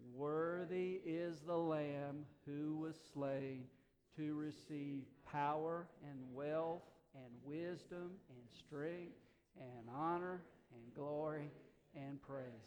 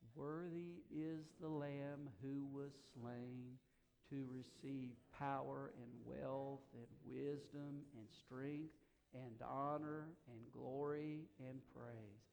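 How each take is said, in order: First: It is said somewhat louder. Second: It is said quietly.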